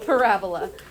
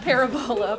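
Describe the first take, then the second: First: It uses the standard pronunciation. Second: It follows the spelling-based pronunciation. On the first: The speaker calls it right. "but it's parabola" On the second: The speaker calls it wrong. "Not parabola"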